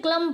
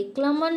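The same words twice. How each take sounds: First: क्लम ending on M; silent N. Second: क्लमन with final N sounded; wrong pronunciation. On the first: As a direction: drop the final N in क्लम. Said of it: "क्लम पढ़ेंगे". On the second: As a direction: end क्लमन on "man". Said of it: "क्लमन नहीं पढ़ेंगे". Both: Shown as a demonstration.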